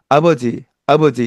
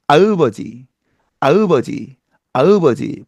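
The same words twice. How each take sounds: First: Said in the usual way. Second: 아으버지 with an added eu vowel; 아으버지 said with a foreign inserted eu; English accent Korean. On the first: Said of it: "이렇게 발음할 것을". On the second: Shown as a demonstration. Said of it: "이렇게 발음한다면".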